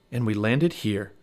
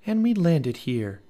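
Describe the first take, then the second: First: Said in the usual way. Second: Higher slow echo of Jack; slower Annie echo. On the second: Acted. Annie echoes Jack's words in slow wonder. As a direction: repeat it slowly in wonder.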